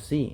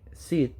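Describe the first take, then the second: First: The letter is said as zee. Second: The letter is said as zed. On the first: "en inglés americano" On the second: "en inglés británico"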